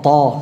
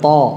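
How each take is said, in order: The two takes are said the same way.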